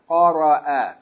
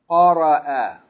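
Both takes have the same delivery.

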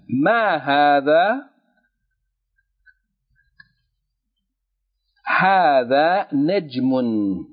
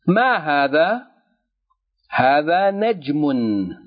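First: It is read at a slower, dictation pace. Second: It is read at a normal speaking pace.

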